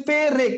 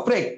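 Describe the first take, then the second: First: পেরেক said slowly with a vowel between প and র; inserted vowel, slow. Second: প্রেক said with প and র joined; joined cluster. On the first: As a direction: stretch it out as পে-রেক. (ধীরে পে-রেক, মাঝে স্বর ঢুকিয়ে) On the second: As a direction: say প্রেক as one tight syllable. (প্রেক যুক্তবর্ণে এক টানে) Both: Shown as a demonstration. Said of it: "যেমন আমি যখন বলতেছি কি পেরেক".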